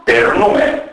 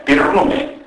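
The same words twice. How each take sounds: First: Said in the usual way. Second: "πυρνούμε" with unstressed e raised to i; narrowed unstressed vowel. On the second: Shown as a demonstration. Lecturer showing Macedonian vowel narrowing, unstressed e as i in "πυρνούμε". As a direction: say "πυρνούμε" with a northern i in the first syllable. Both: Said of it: "η τροπή των άτομων ε και ο σε ή και ου".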